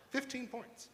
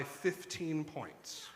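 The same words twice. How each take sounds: First: High, hushed echo of FIFTEEN POINTS; mock disbelief. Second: Said in the usual way. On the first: Real, not acted. Host doubting the pollster's lead for the governor, softly incredulous. Incredulous repeat of the poll figure.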